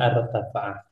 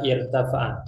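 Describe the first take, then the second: First: The word begins with an 'a' vowel. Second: The word begins with an 'i' vowel. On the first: The speaker calls it wrong. "bukan artafa'a" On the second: The speaker calls it right. "dia irtafa'a cara membacanya"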